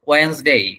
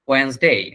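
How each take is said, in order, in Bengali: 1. দুটি সিলেবল, মাঝের সিলেবলটি বাদ যায়। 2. দুটি সিলেবল, মাঝের সিলেবলটি বাদ যায়।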